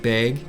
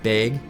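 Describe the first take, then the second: First: The vowel is tightened toward 'eh', northern Wisconsin. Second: The same.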